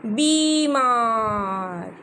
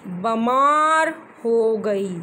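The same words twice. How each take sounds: First: बीमार very slowly, long ee after b, bee-maar; correct pronunciation. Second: बमार said with no ee after b; wrong reading. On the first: Teacher correcting a pupil, slow clear बीमार. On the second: Teacher quoting a child's misreading बमार. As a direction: read बमार as a slip, bamaar. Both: Shown as a demonstration. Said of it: "बमार word नहीं होता है".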